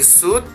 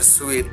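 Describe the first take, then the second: First: The word rhymes with boot. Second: The word rhymes with feet. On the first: This is how the speaker says it. "Ang bigkas ko doon ay suit" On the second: This is how someone else says it. "sabi ni Sister Maria, it is a sweet"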